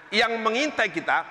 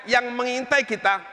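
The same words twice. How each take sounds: The two takes are said the same way.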